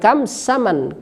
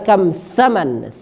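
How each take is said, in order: First: The second word begins with an 's' sound. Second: The second word begins with a 'th' sound. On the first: The speaker calls it wrong. "kadang orang Indonesia bilang kam saman" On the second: The speaker calls it right. "yang benar adalah kam thaman"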